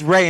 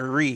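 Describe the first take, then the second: First: The vowel sounds like the word 'ray'. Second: The vowel sounds like the note 're'. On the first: The speaker calls it right. "I hope it's Ray" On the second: The speaker calls it wrong. "not Re, because I was like, you know, Do Re Mi"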